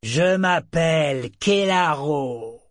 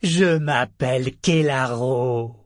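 First: Higher, louder and slow; triumphant slow bellow; loud proclamation. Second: Louder declaration. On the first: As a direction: proclaim it to everyone around. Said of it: "brailla-t-il". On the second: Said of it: "déclara-t-il". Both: A narrator's reading.

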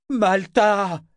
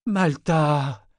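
First: High, drawn-out bellowed name; loud, desperate call; drunken bellow. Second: High, drawled name; slurry, lingering call; drawling. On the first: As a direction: bellow her name into the night. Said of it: "beugla-t-il dans la nuit". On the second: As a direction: drag the name out drunkenly. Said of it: "d'une voix traînante". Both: A narrator's reading.

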